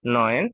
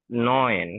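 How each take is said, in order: First: নয়ন said again with the vowel pair as explained; নয়ন spoken clearly after the vowel rule, a touch louder; German nine, corrected. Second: নয়ন said as a German word, slow and clear; নয়ন pronounced carefully as German for nine; German number nine. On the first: Teacher repeats নয়ন for students after explaining the vowels. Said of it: "এ and উ যদি একসাথে বসে তাহলে এটার উচ্চারণ". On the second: Teacher showing students how to say নয়ন in German. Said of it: "এখানে একটা জিনিস দেখুন". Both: Shown as a demonstration.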